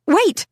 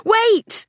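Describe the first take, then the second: First: A high, sharp cry; sudden shout. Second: Much higher, ringing shout; full shout. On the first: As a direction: stop them with one word. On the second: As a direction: really yell it this time. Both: A narrator's reading. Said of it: "Was I shouting?".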